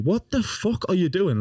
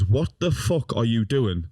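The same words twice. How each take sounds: First: High, slow, incredulous question; retold disbelief. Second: Drawn-out question at usual pitch; slow motion. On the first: Grandson confronting nana as she trashes the room, incredulous. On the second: Retold or imitated. Grandson retelling the moment time slowed, in slow motion. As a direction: replay the question slowly, word by word. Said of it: "everything went in slow motion".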